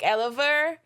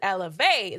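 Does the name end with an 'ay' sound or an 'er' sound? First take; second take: er; ay. First: The name ends with an 'er' sound. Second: The name ends with an 'ay' sound. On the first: The speaker calls it wrong. "I didn't want people to pronounce it like El- Oliver, like Eliver" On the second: The speaker calls it right. "pronounce it elevate the right way"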